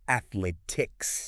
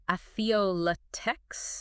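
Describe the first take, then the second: First: Slow "Athletics", just three syllables; correct pronunciation. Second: "athleoletex" as ath-uh-let-ics; extra syllable. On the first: Co-host correcting the error, slow correct pronunciation. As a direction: draw out "Athletics", no vowel after th. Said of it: "Just the three syllables". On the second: Host admitting a tricky word, mispronunciation. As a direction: slip a vowel after th in "athleoletex". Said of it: "I wanna say". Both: Shown as a demonstration.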